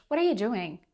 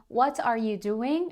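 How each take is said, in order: First: "what are you" run together; native reduced "whaddaya doing". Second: Every word of "what are you doing" separate; "what are you doing" fully pronounced, rising; overly correct full words. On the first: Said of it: "a native speaker will say". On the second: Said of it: "if you speak too correctly". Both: Shown as a demonstration.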